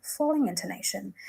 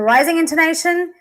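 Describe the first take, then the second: First: "falling intonation" dropping in pitch. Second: "rising intonation" lifted in pitch. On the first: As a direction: let the voice come down on "falling intonation". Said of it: "would I use the falling intonation". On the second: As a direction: raise the voice a little on "rising intonation". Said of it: "when do we use the rising intonation". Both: Shown as a demonstration.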